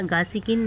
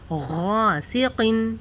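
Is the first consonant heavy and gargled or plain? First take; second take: plain; gargled. First: The first consonant is a plain, light g. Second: The first consonant is heavy, rounded and gargled. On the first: The speaker calls it wrong. "गासिकिन नहीं है" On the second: The speaker calls it right. "मुंह को थोड़ा सा गोल करें और इसे मोटा पढ़ें"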